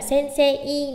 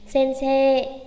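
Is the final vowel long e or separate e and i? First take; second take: separate; long e. First: The final e and i are said separately. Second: The final syllable is said with a long e. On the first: The speaker calls it wrong. "không phải là sensei" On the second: The speaker calls it right. "Mà sẽ đọc kéo dài thành sensei"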